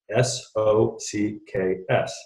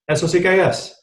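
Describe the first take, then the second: First: The letters are spoken slowly, one by one. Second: The letters are run together quickly. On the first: "you spell out the word in English" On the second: "When you say it fast"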